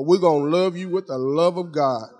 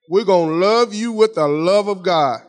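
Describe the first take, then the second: First: Said in the usual way. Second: Firmer, more forceful repeat; emphatic promise. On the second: Real, not acted. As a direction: drive the promise home to the congregation.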